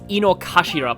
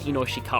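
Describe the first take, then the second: First: The middle syllables are said as 'kashira'. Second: The middle syllables are said as 'shikara'. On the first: The speaker calls it right. "it's Inokashira Park" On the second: The speaker calls it wrong. "I pronounced this wrong last time"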